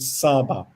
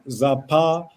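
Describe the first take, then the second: First: It starts with s and has a b. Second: It starts with z and has a p. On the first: The speaker calls it right. "you read it Saba" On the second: The speaker calls it wrong. "or not Zapa"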